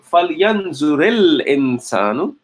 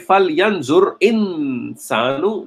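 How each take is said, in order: First: Yanzur links into insanu with an added i vowel. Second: Yanzur ends in a bare consonant before insanu. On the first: The speaker calls it right. "it will give you more connected way of reading it" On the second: The speaker calls it wrong. "that's fine, but it does not give you the flow in the language"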